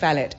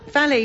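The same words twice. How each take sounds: First: The word is pronounced the non-American way. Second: The word is pronounced the American way. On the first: The speaker calls it right. "valet is correct" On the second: The speaker calls it wrong. "valet is actually an Americanism"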